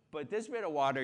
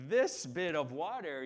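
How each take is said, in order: First: "bit" leaned on, louder; stress on bit. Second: "this" punched, the rest falling; stress on this. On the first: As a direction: push "bit" in "this bit of water". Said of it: "this bit of water, you're good". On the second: Pointing at the shallow water, stress on "this". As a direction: hit "this" in "this bit of water". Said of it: "But this bit of water, you're not". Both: Shown as a demonstration.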